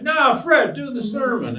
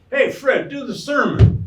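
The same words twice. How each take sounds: First: Much higher, louder, pushier call; insist, shouting him back onto the stage; insistent crowd shout. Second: Higher, louder shout from the crowd; audience member calling out. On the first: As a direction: crowd member demanding the sermon again. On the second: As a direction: yell across the hall, egging him on. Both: Retold or imitated. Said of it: "somebody in the audience would say".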